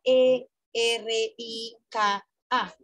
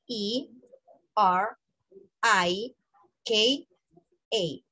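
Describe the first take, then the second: First: "E, R, I, K, A" spelled with Spanish letter names, eh, erre, ee, ka, ah. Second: "E, R, I, K, A" spelled with English letter names, ee, ar, eye, kay, ay. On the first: Teacher spells her name for students in Spanish letter names. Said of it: "en español sería". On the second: Teacher models English spelling of her name for students. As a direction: spell "E, R, I, K, A" the English way, slow and clear. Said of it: "pero en inglés sería". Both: Shown as a demonstration.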